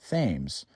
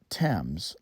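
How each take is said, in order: First: The name is said the local, non-London way. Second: The name is said the way London says it. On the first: This is the name of the Connecticut river. The speaker calls it right. "that's how you pronounce the name of this river" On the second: This is the name of the London river. The speaker calls it wrong. "not Thames, like in London"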